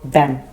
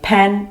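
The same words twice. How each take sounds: First: The word begins with a voiced B sound. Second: The word begins with a voiceless P sound. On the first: The speaker calls it wrong. "they might say pen" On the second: The speaker calls it right. "Instead of saying pen"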